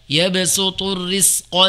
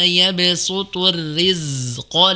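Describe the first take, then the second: First: The consonant before q is a voiceless s. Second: The consonant before q is a voiced z. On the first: The speaker calls it wrong. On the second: The speaker calls it right.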